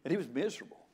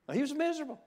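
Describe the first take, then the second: First: Said in the usual way. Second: Miserable pitched much higher, a long wailing fall; whining high pitch. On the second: Shown as a demonstration. Preacher mimics the rich friend moaning he was miserable, high whine.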